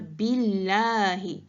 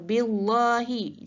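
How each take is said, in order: First: The L is pronounced thin and light. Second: The L is pronounced thick and heavy. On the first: The speaker calls it right. "Kena baca billahi, secara nipis je sebutan huruf lamnya" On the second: The speaker calls it wrong. "tidak boleh dibaca secara billahi, itu salah"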